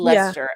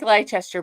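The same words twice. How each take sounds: First: It is pronounced the usual, accepted way. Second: It is pronounced the way the spelling looks. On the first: The speaker calls it right. "but it's" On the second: The speaker calls it wrong. "when you look at it spelling, it looks like Leicester"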